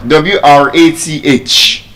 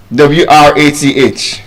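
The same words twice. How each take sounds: The two takes are said the same way.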